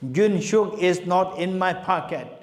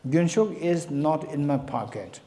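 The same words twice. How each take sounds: First: It is said loudly. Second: It is said at normal volume.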